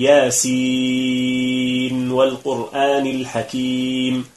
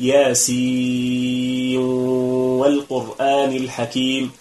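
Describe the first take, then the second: First: The n is pronounced clearly before the w. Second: The n is merged into the following w. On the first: "الإظهار أن نقول ... أي نظهر النون عند الواو" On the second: "الإدغام نقول ... فندغم النون في الواو"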